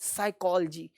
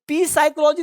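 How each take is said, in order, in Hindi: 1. यह शब्द s की आवाज़ से शुरू होता है। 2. यह शब्द p की आवाज़ से शुरू होता है। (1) "पी को साइलेंट करो" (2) "ये पी साइकोलॉजी नहीं है"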